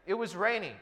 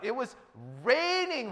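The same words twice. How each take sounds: First: It is said plainly, without extra emphasis. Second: It is said with strong, intense emphasis. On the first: It rained in an ordinary way. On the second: It rained far more heavily than usual.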